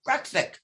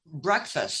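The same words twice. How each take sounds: First: Higher-pitched, garbled attempt at "Breakfast"; childhood mispronunciation. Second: Said in the usual way. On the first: Child failing brother's drill, mispronouncing "Breakfast". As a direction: fumble the end of "Breakfast" like a struggling child. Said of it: "I could not tie those two words together". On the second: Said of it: "my brother would say".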